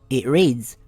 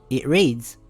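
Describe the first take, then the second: The two takes are said the same way.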